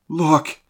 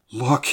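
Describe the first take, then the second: First: Much higher, louder alarmed cry; urgent gasp, pitched right up. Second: Higher, louder startled gasp; a short horrified cry. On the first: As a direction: cry out in horror. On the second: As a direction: gasp it out in alarm. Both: A narrator's reading. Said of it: "I gasped".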